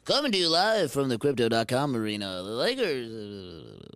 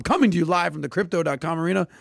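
First: Deep, drawn-out announcer voice; fighting game announcer. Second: Announcer voice. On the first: Pretend. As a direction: boom it out like an arena announcer. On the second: Shown as a demonstration. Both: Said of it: "Let's hear your announcer voice".

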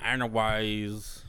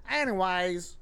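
First: Slow drawled Texas "Anyways"; country talk. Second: Anyways drawled Texas style, "Anyways" with a long country drawl; country talk. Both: Shown as a demonstration. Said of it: "like, country talk".

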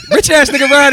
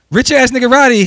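First: Shouted high through laughter; laughing drop. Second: Booming, high announcer drop voice; hype radio drop. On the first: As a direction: belt the name while cracking up. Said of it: "what's my drop?". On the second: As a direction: shout the name like a radio DJ tag. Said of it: "You got a drop". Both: Pretend.

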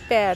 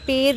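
First: पैर with a wide open ai; open AI vowel. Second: पैर said as "per", with a plain long e; long E vowel. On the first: Teacher gives the corrected reading, पैर with open ai. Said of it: "अब बोला जाएगा पैर". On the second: Teacher shows the rejected reading, पैर with a plain e. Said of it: "पैर नहीं, अब बोला जाएगा". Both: Shown as a demonstration.

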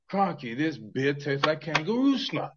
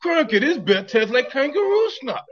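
First: Slow, put-on Australian accent; broad mock Australian, drawn out. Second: High, loud hammed-up Australian accent. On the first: Host asked for Australia, slow mock Australian accent. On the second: Host repeats after "What?", loud high mock Australian accent.

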